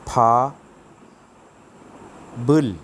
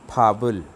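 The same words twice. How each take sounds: First: "फा" and "बुल" said apart, each stressed, with a clear pause between; syllable by syllable. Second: "फाबुल" run into one smooth word, final consonant carried onto the next syllable; blended together. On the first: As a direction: split "फा" "बुल" into two slow, separate syllables. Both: Shown as a demonstration. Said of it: "कैसे पढ़ेंगे इसको?".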